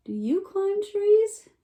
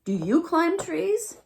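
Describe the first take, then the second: First: Higher, slow squeaky question; little raccoon asking. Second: High, slow question; little raccoon asking. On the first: Raccoon repeating his question to the fawn, high and slow. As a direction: stretch it out in the critter voice. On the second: Raccoon asking the fawn about trees, high and slow. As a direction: ask it slowly and sweetly. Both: A narrator's reading. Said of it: "said the little raccoon".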